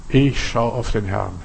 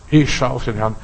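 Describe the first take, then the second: First: Slow, soft inner vow; quiet affirmation. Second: Said in the usual way. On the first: Shown as a demonstration. Believer quietly repeating the vow, slow and soft. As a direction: say it to yourself in calm trust. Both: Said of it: "beginnt mit unserer Vorstellung".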